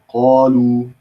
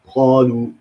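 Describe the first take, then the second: First: It begins with a deep back-tongue q sound. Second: It begins with a raspy throat kh sound. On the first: The speaker calls it right. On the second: The speaker calls it wrong.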